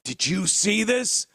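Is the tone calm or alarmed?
alarmed. It is said in an alarmed, excited tone.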